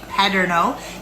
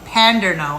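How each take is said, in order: First: No n sound comes before the d. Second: An n sound comes before the d. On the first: The speaker calls it right. "I'm saying Paderno" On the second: The speaker calls it wrong. "I'm not saying Panderno"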